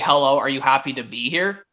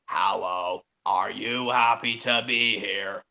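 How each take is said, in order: First: It is said in a devious tone. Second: It is said in a very scary voice.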